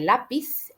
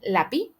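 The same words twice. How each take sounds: First: The final z sound is pronounced. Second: The final z sound is left out.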